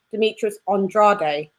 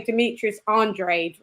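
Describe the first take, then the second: First: Andrade said "on-DRAH-day"; British pronunciation. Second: Andrade ending like "raid", two syllables; co-host quoting the American way, Andrade rhymed with "raid"; American pronunciation. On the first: Shown as a demonstration. Co-host showing how we say the boxer's name, Andrade as "on-DRAH-day". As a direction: Andrade in three syllables, ending in "day". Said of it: "We say". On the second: Retold or imitated. Co-host imitating how Americans say the boxer's name, American pronunciation. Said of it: "you, like, say".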